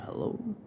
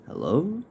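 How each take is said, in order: First: Puzzled hello. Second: Put-on girl's questioning hello. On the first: Retold or imitated. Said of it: "I said". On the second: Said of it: "a girl picks up the phone".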